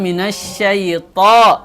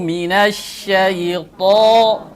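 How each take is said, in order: First: The t is light, with a thin sound. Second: The t is heavy, with a full-mouthed sound. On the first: The speaker calls it wrong. "Ini tidak terangkat pangkal, pangkal lidahnya" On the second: The speaker calls it right. "To harus diangkat pangkal lidah. Ya, sehingga terasa mulut itu penuh"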